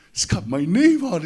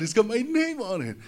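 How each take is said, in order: First: Louder excited cry of "name"; excited boy. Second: Much higher squeal on "name"; giddy boy. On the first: Little boy shows off his trophy, loud and thrilled. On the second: Little boy repeats it to himself, high and giddy. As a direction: up in the air with glee. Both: Retold or imitated. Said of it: "oh, man, I was so excited".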